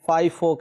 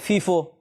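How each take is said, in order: First: The first vowel sounds like 'eye'. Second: The first vowel sounds like 'ee'. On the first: The speaker calls it right. "नहीं फाइफो कहें please" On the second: The speaker calls it wrong. "कुछ लोग कहते हैं फीफो"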